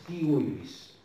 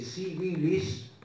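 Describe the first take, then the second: First: It begins with a hard K sound. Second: It begins with a soft S sound.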